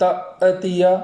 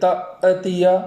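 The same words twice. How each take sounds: First: The voice carries on with a vowel after it. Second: The voice carries on with a vowel after it.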